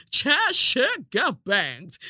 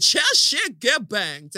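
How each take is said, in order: First: Slow drawn out British accent imitation; mock British accent. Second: Slow drawn out British accent imitation again; mock British accent. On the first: Chair quoting a British lady, mock British accent. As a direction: drawl it like a Brit, slow. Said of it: "in your British accent". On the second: Chair repeating the British lady, mock British accent. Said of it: "She said".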